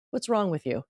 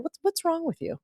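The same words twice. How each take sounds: First: Said in the usual way. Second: Pitched much higher, quoting a man who says what's wrong; "What's, what's wrong with you?" with a high, mocking lift on "wrong"; mock condescending guy. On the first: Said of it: "he said". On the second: Mocking the man who asked why she was single, pitched high. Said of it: "a guy saying".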